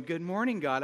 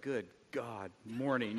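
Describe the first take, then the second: First: Chipper greeting. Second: Low, softer groggy mumble; mumbled groggy morning greeting; groggy grumble. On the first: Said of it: "I don't wake up going". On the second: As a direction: sound half asleep and grumpy. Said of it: "I wake up". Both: Retold or imitated.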